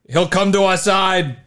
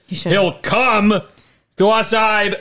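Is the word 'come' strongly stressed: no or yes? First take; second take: no; yes. First: The word come carries no special stress. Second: The word come carries strong stress. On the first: The speaker calls it wrong. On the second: The speaker calls it right.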